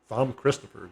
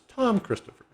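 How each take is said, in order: First: The name starts with a th sound. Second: The name starts with a plain t sound. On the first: The speaker calls it wrong. "I'm I'm calling him Thom" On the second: The speaker calls it right. "later I found out it was Tom Christopher"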